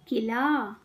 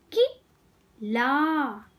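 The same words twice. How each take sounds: First: Said in the usual way. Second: कि, then a pause, then a drawn-out ला; syllable by syllable. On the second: Shown as a demonstration. Teacher teaching kids to read, syllables apart. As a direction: break it as कि - ला. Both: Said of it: "शब्द पढ़ना सिखाऊंगी".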